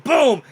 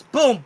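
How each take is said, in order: First: Loud boom sound effect. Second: Said in the usual way. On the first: A narrator's reading. GM voicing the crash of the fall, loud boom. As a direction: shout boom high and loud.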